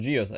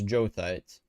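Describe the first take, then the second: First: The word begins with two syllables, 'gee-oh'. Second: The word begins with one syllable, 'jo'. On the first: The speaker calls it wrong. "it's not geothite" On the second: The speaker calls it right. "it's jothite"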